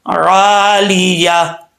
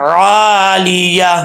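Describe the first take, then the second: Both takes have the same delivery.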